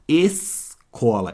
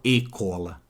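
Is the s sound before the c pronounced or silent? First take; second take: pronounced; silent. First: The s sound before the c is clearly pronounced. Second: The s sound before the c is left out. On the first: The speaker calls it right. "Eu falo e escuto escola mesmo" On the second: The speaker calls it wrong. "Eu não falo e-cola"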